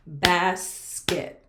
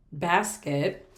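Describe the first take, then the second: First: "basket" in two firm beats, bas-ket; long "bas", gap, then "ket"; clapped-out syllables. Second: Said in the usual way. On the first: Shown as a demonstration. Teacher clapping out a word for pupils, syllable by syllable. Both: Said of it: "We can clap out that word".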